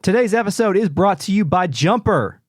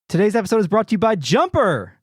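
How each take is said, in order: First: It is said in a plain, flat way. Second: It is said loudly, like an exclamation.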